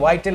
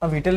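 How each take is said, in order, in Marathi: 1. पहिला स्वर 'eye' आवाजाचा आहे. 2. पहिला स्वर लहान 'i' आवाजाचा आहे. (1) "वायटल आहे" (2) "विटल नाही"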